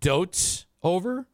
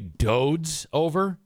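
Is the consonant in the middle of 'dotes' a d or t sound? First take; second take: t; d. First: The word is said with a t sound. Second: The word is said with a d sound. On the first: The speaker calls it right. "You say dotes over?" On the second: The speaker calls it wrong. "you don't say dodes over?"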